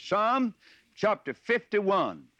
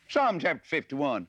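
First: "Psalm chapter fifty-one" drawn out slowly and higher; proper emphasis. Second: Said in the usual way. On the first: Shown as a demonstration. Preacher showing listeners the proper emphasis, emphatic. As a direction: give "Psalm" and "fifty-one" slow, raised weight. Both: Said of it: "the, the proper emphasis".

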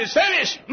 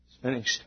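First: Very high preacher's shout; shouted proclamation. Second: Said in the usual way. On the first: Acted. Preacher voicing Jesus on the cross, shouted proclamation. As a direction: cry it out in triumph. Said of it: "When he shouted". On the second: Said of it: "something else he meant when he said".

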